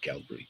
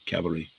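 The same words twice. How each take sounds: First: The l sound comes before the v. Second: The v sound comes before the l. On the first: The speaker calls it wrong. "not cavalry" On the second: The speaker calls it right. "Cavalry, I should say"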